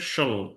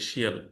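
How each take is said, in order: First: The ending has one weak unstressed vowel, shul. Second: The ending has two full vowels, shee-al. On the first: The speaker calls it right. "এটা হচ্ছে শল" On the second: The speaker calls it wrong. "এভাবে বলি শিয়াল। তো এগুলো আসলে শিয়াল না।"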